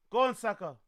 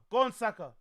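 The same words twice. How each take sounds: The two takes are said the same way.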